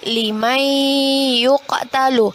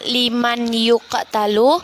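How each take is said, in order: First: The n merges into a held, nasalized y. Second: The n is pronounced clearly before the y. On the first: "kemudian menjadi ... Kita tahan dua harkat dan kita dengungkan"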